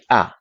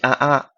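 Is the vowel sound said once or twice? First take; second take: once; twice. First: The vowel sound is said only once. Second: The vowel sound is said twice in a row. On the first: The speaker calls it right. "it's just one a" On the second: The speaker calls it wrong. "So you don't say a a"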